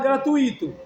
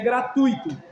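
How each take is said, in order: First: The 'u' and 'i' form two separate syllables. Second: The 'u' and 'i' join in one syllable. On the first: The speaker calls it wrong. "Tem gente que fala gratuito. Aí seria hiato" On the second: The speaker calls it right. "Mas a pronúncia é gratuito. Então é um ditongo"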